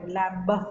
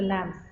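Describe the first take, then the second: First: The word ends with an audible b sound. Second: The word ends with an m sound. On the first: The speaker calls it wrong. "we don't uh, pronounce it with a lot of sound like lamb" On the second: The speaker calls it right. "It's just a lamb"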